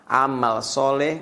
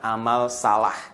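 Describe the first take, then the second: First: The second word has an 'o' and 'e' vowel. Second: The second word has two 'a' vowels. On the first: It names good deeds pleasing to God. The speaker calls it right. "Amal soleh bukan amal salah" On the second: It names wrong deeds. The speaker calls it wrong. "salah baca"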